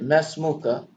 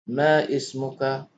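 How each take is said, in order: First: The two words run together as one. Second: The two words are said separately.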